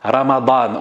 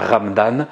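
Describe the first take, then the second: First: All three syllables are pronounced in full. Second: The middle vowel is dropped, giving two syllables. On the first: The speaker calls it right. "ça se dit Ramadan" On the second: The speaker calls it wrong. "on ne dit pas Ramdan"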